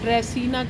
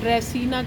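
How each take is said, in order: First: The middle consonant is pronounced as an s. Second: The middle consonant is pronounced as an s.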